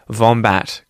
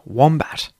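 First: The word begins with a V sound. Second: The word begins with a W sound. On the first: The speaker calls it wrong. "pronounce this more as a V, wombat kind of sound instead of a W" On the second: The speaker calls it right. "Make sure, though, that you say the W sound as W"

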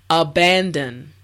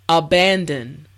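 No difference in how they are said.

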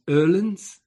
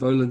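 First: The first vowel sounds like "er". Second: The first vowel sounds like "oh". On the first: The speaker calls it right. "the pronunciation of Olin's is Erlin's" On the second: The speaker calls it wrong. "But no, the pronunciation of Olin's"

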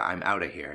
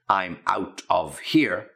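First: The words are run together and reduced. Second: Each word is said fully and separately. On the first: "so you run it together" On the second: "if you want to put it in its proper pronunciation"

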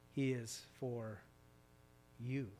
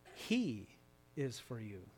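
First: The stress is on the word 'you'. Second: The stress is on the word 'he'. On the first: "And finally" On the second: "you put the emphasis on a different word"

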